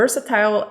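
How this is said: The word is said in a British accent. "versatile is British English"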